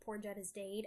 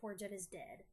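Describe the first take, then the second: First: The last word rhymes with 'made'. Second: The last word rhymes with 'bed'. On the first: It follows how the song is written. The speaker calls it right. "I gotta say it like that because it's written that way" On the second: It sounds too conventional. The speaker calls it wrong. "That's just too square"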